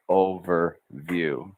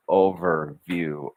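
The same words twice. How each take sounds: First: Overview said very slowly with a rise at the end; overview slowed, rising. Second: Overview said slowly, over finished then pushed into view; overview slowed. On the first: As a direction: stretch overview and lift the end. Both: Shown as a demonstration. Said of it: "then push into the word view".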